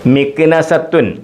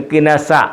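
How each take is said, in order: First: The word ends with a pronounced -tun ending. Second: The word ends in a vowel, no t sound.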